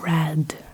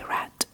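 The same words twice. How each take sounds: First: The word ends with a voiced d sound. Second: The word ends with a voiceless t sound. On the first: "instead of red" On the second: "you say red"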